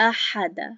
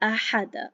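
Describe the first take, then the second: First: Each vowel is kept short, one beat each. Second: The same.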